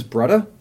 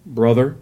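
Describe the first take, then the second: First: Brother with a t-like th, pɹʌtə, no final r; Hawaiian brother. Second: Brother with full th and r, pɹʌðər; standard brother. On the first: Teaching friends the Hawaiian term, brotah pronounced. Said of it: "the term is". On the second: Showing friends the wrong mainland brother. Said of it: "It's not". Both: Shown as a demonstration.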